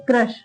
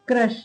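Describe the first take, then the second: No difference in how they are said.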